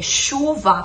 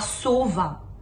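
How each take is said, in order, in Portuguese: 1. A palavra começa com som de sh. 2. A palavra começa com som de s. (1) "em vez de falar é, chuva" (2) "falar suva"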